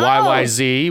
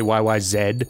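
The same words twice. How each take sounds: First: The last letter is said as zee. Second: The last letter is said as zed.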